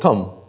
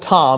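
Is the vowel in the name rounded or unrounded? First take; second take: unrounded; rounded. First: The vowel is an unrounded short U. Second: The vowel is a full rounded O. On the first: "You wouldn't round out your O, it's Tum" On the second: "It wasn't Tom"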